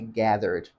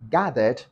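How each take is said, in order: First: The R sound is pronounced. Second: The R sound is silent.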